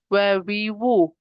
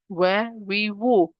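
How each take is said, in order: Both takes have the same delivery.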